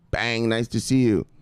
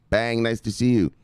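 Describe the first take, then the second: No difference in how they are said.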